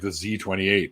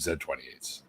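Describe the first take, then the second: First: The letter Z is said the American way, zee. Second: The letter Z is said the Canadian way, zed.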